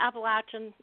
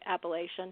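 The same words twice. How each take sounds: First: It uses the local regional pronunciation. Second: It uses a non-local pronunciation. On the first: This is how people in the area say it. "is how you say it here" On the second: This is how an outsider says it. "I'm not from here, so I still say Appalachian"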